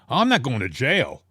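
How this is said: It is said in a defensive, protesting way. "It wasn't a defensive"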